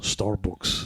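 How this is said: It is said in an Irish-sounding accent. "No, that's Irish"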